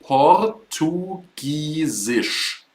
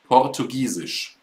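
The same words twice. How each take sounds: First: Portugiesisch drawn out slowly, each syllable clear; teacher stretches out Portugiesisch; slow demo word. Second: Said in the usual way. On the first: Shown as a demonstration. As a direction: model Portugiesisch very slowly for the class. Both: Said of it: "This is quite similar. It is".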